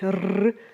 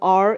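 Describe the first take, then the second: First: The R is said the Spanish way. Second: The R is said the English way. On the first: The speaker calls it right. "like in Spanish, you know, when you say uh, something like te quiero" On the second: The speaker calls it wrong. "it's not R"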